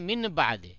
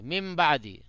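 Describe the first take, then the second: First: An n sound is heard before the b. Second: An m sound is heard before the b. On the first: "असल में है मिन बाद" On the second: "नून पढ़ने में नून नहीं बल्कि मीम पढ़ा जाता है"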